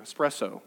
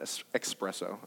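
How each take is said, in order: First: The word begins with a plain 'es' sound. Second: The word begins with an 'ex' sound. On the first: The speaker calls it right. "Espresso, not espresso. I learned that" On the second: The speaker calls it wrong. "not espresso"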